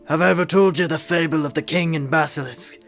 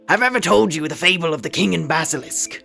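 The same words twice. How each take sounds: First: It is a gruff, vaguely Irish put-on voice. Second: It is the put-on info skeleton character voice.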